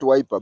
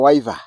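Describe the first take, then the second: First: The middle consonant is pronounced as a P. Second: The middle consonant is pronounced as a V. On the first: "not wiper" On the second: "to pronounce it in a Kikamba accent"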